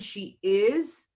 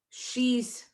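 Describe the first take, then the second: First: Both words are said in full, separately. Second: The two words merge into one short syllable. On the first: "the long form" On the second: "the short form when we use a contraction"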